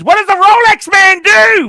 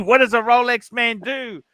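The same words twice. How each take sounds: First: Sudden high, loud shout; big shout. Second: Said in the usual way. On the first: Real, not acted. Host shouting his question at the guest, loud. Host demands inspiring words.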